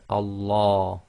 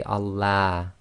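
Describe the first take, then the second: First: Allah slowly, with a full "law" as in large; heavy tafkhim Allah. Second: Allah with a thin "la" as in lamb; light L in Allah. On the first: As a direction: say Allah with a heavy, dark second syllable. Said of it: "tafkhim sounds are heavy". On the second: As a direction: say Allah with a front "a", the mistake shown. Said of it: "You can't say Allah". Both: Shown as a demonstration.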